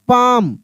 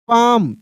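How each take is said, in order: First: The L sound is left out of the word. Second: The L sound is left out of the word.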